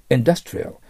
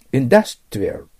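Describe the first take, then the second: First: Industrial again with dus punched, exaggerated; stress on dus. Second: Industrial with dus hit hard and exaggerated; stress on dus. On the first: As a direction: lean hard on dus in industrial. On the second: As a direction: punch the dus of industrial, louder. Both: Shown as a demonstration. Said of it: "だのとこ強く極端に言ってますよ".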